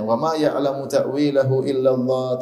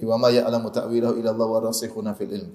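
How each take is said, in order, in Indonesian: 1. Bacaan berhenti tepat setelah 'illallah'. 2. Bacaan terus berjalan melewati 'illallah' tanpa berhenti.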